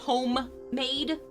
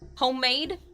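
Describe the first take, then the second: First: It is said fully, with a standard accent. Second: It is said with sounds dropped, regionally accented. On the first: "instead of" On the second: "I have an accent. ... We drop a lot of letters from words that don't need them"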